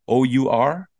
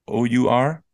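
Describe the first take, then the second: No difference in how they are said.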